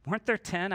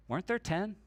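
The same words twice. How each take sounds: First: Said in the usual way. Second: Quiet Jesus voice. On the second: Retold or imitated. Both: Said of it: "And Jesus says".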